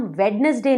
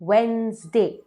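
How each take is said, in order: First: वेडनेसडे spelled out as "wed-nes-day", every letter sounded; "वेडनेसडे" with all three syllables, d sounded; wrong Wednesday. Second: वेडनेसडे as "wens-day", the d dropped; "वेडनेसडे" in two syllables, no middle d; correct Wednesday. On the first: Teacher shows viewers the wrong "वेडनेसडे", all syllables sounded. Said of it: "वो गलत pronunciation है". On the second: Teacher gives viewers the right "वेडनेसडे", middle d dropped. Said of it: "गलत उच्चारण है". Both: Shown as a demonstration.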